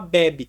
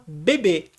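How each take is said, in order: First: The stress is on the first syllable. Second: The stress is on the last syllable. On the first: "ela é paroxítona e aí você fala bebe" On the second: "Você percebe que a palavra é oxítona e fala bebê"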